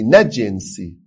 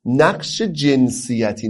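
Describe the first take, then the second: First: Clipped correction, punch جنسی against جنسیتی; firm short contrast on the word جنسی. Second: نقش جنسیتی said slowly, each syllable of جنسیتی drawn out; slow, careful stress on جنسیتی to mark it as gender roles; جنسیتی spelled out slowly in a teaching tone; stressed gender role term. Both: Shown as a demonstration.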